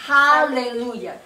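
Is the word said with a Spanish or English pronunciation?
English. The word is said with an English pronunciation. This is how people in the United States say it. "dicen aleluya"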